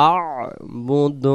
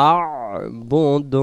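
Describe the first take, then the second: Both takes have the same delivery.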